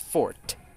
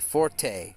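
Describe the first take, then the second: First: The word is said with one syllable. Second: The word is said with two syllables. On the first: The speaker calls it right. "actually, the French word meaning your best skill is pronounced fort" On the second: The speaker calls it wrong. "you would colloquially hear it pronounced"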